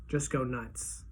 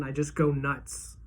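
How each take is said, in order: First: Softer repeat, almost to himself; soft echo. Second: Slow, dragging the words; slow, heavy. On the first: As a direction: echo it under the breath. Narrator echoes the phrase. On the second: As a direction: draw it out slowly, stunned. Narrator dwelling on breakdown. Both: A narrator's reading.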